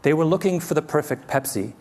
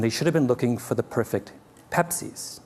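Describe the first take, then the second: First: Said in the usual way. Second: Hushed, with Pepsis held back; pause before Pepsis. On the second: Shown as a demonstration. Speaker reveals Howard's answer to the audience, pausing before Pepsis. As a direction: soften and set Pepsis apart as the reveal.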